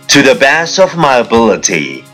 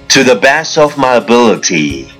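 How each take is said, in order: No difference in how they are said.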